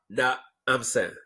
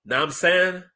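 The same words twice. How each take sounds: First: "Now I'm saying" split as nah, I'm san; "Now I'm saying" with a break after the first syllable; split variant. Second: "Now I'm saying" fused as nahm-san; higher, slurred "Now I'm saying" as one word; run-together variant. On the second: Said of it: "Either nah mean or nah". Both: Shown as a demonstration.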